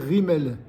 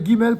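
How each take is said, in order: First: The word begins with a French R sound. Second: The word begins with a hard G sound. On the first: "comme un R français" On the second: This is the usual modern reading. "elle se prononce Ge"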